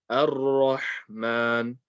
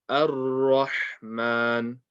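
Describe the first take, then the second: No difference in how they are said.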